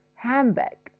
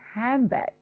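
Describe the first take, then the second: First: The d is dropped and n becomes m. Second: The same.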